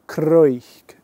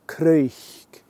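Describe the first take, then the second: First: The word starts with a k-r sound. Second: The word starts with a k-r sound.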